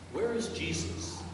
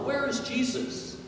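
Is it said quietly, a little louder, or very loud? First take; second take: quietly; a little louder. First: It is said at a normal, quiet volume. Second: It is said a little louder.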